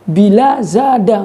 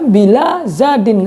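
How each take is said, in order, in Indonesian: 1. Kata terakhir berakhir dengan bunyi 'a'. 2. Kata terakhir berakhir dengan bunyi 'in'. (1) "nggak dibaca bila zada, enggak" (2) "Maka dibaca bila zadin"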